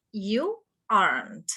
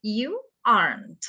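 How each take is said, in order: Both takes have the same delivery.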